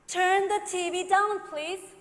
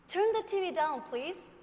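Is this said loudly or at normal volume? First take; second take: loudly; normal volume. First: It is said at a louder volume. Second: It is said at a normal volume.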